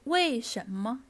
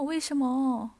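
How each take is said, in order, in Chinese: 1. 这是用清晰的普通话声调说的。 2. 这是用韩式发音说的，声调被忽略了。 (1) "我们中文是为什么，对吧，有声调的" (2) "他们可能会说啊为什么"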